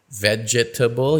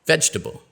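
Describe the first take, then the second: First: "Vegetable" slowly with all four syllables. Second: "Vegetable" said "vej-ta-ble" in three syllables. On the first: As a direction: say "Vegetable" as "ve-ge-ta-ble". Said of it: "you might expect four". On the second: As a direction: drop the middle vowel in "Vegetable". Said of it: "it's actually pronounced just three". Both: Shown as a demonstration.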